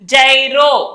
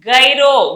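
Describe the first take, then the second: First: The word starts with a J sound. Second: The word starts with a hard G sound. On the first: The speaker calls it right. "జైరో అంటాము" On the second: The speaker calls it wrong. "గైరో అనకూడదు"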